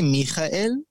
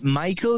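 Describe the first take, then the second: First: The name has a throaty Hebrew h sound. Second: The name is said the plain English way. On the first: "So in Hebrew, you say Michael" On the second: "And Michael is fine as well"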